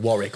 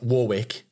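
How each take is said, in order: First: It is said with an English-style pronunciation. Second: It is said with an American-style pronunciation. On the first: The speaker calls it right. "instead of Warwick" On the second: The speaker calls it wrong. "when Americans come in England, it's like Warwick"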